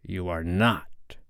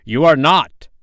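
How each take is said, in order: First: Stunned, subdued denial; hoarse cry. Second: High, loud, insistent denial; outraged contradiction, pitched up; hoarse cry. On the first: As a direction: deny it slowly under your breath. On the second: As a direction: cry it out louder, refusing to believe. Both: A narrator's reading. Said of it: "cried Hook hoarsely".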